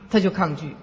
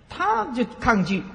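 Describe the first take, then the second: First: Said in the usual way. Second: Slowed and pitched higher, 她就抗拒 drawn out; slow emphatic. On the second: Shown as a demonstration. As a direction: lean on 她就抗拒 slowly. Slow emphatic first take.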